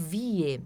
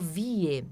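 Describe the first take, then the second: First: The vowel is an i followed by an e. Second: The vowel is an i followed by an e.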